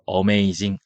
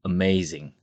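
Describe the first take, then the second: First: The first vowel is a full 'ah' sound. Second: The first vowel is a short 'uh' sound. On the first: The speaker calls it wrong. "amazing 아니고요" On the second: The speaker calls it right. "어, amazing"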